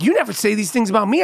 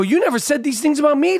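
First: Quick retold reproach; lightly voiced wife, hurried; wife's complaint. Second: High-pitched mock indignation; indignant comeback. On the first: Wife to husband at the wedding, mildly reproachful. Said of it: "she was like". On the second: Husband answering his wife, mock indignant. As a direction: throw the complaint back, pitched well up. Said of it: "I go".

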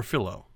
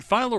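First: Philo said FEE-loh, first syllable like "fee"; second pronunciation option. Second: Philo said FY-loh, first syllable like "fie"; first pronunciation option. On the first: Host offering the other option, Philo pronounced FEE-loh. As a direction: say Philo with a long "ee" vowel. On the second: Host checking the company name, Philo pronounced FY-loh. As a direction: say Philo with a long "eye" vowel. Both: Shown as a demonstration. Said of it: "is it Philo or Philo?".

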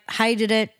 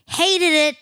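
First: Said in the usual way. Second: HATED punched higher and louder; emphatic repeat. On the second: Real, not acted. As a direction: hit HATED hard, driving the verdict home.

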